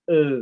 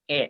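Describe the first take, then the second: First: The vowel sounds like the first vowel of elang. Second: The vowel sounds like the first vowel of ember. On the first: "seperti misalkan elang" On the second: "seperti eh, misalkan ember"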